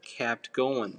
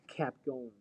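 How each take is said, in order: First: The t sound in 'kept' is fully pronounced. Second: The t sound in 'kept' is dropped. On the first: "the word kept going" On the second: "in American accent, like"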